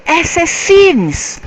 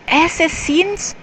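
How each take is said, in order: First: Loud, high, drawn-out exclamation; high-pitched excited cry; blurted out. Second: High-pitched, rising question; puzzled high voice lifting at the end; stopped short, questioning. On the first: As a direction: blurt it out in sudden realization. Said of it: "Matthew blurted out". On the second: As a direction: pull up short and query it. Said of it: "Then he stopped". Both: A narrator's reading.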